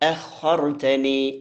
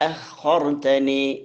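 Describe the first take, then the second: Both takes have the same delivery.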